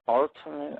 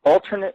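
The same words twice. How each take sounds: First: "alternate" stumbled over, said haltingly; fumbled word. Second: "alternate" pushed out firmly, stressed at its start; word finally got out. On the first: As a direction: trip on "alternate" as if unsure how to say it. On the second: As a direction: land "alternate" cleanly after the stumble. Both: Real, not acted. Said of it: "I can't even pronounce it".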